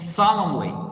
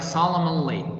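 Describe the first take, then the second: First: The N sound is silent in the word. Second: The N sound is pronounced in the word. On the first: The speaker calls it right. "The N is silent" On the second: The speaker calls it wrong. "don't pronounce like solemnly. No, this is wrong"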